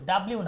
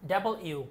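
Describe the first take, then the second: First: The syllables are squeezed together into one word. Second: Double and u are said as separate parts. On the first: The speaker calls it wrong. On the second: The speaker calls it right.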